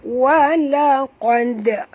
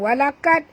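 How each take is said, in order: First: The q sound is heavy and deep. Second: The q sound is light, like a k. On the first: The speaker calls it right. "Tebal huruf qaf" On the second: The speaker calls it wrong. "Bukan walaqad"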